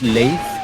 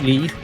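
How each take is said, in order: First: The name sounds different from the word leaf. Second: The name sounds like the word leaf. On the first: The speaker calls it right. "It's Leif" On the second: The speaker calls it wrong. "He's not a Leaf"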